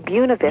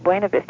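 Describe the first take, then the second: First: It is said in an anglicized local way. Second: It is said in a Spanish-like way. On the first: This is how local natives say it. The speaker calls it wrong. "They say Buena Vista" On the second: This is how the Spanish name should be said. The speaker calls it right. "Instead of Buena Vista"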